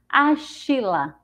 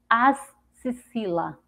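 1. A consoante do meio é um som de sh. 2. A consoante do meio é um som de s. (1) "se a gente for usar o som do X com é, é, C H" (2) "com X com o som de si"

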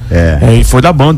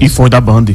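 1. É dita com uma voz imitada, forçada. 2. É dita com a voz natural do falante.

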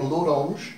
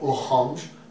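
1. O nome é pronunciado com sons portugueses. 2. O nome é pronunciado com sons franceses. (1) "e é Laurange" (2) "e não Laurange, porque eu não sei falar francês"

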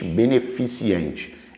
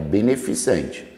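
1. Um som ee extra vem antes de -ente. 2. Nenhum som ee extra vem antes de -ente. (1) "Mas não existe beneficente" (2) "É beneficente"

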